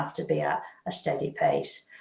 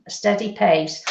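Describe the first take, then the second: First: Whispered. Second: Said in the usual way. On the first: Shown as a demonstration. Medium whispers the advice to the sitter, hushed. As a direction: drop to a whisper.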